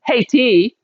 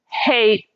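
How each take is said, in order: First: The word ends with an extra vowel sound. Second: The word ends on the t sound. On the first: The speaker calls it wrong. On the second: The speaker calls it right.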